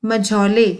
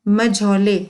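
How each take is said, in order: The two takes are said the same way.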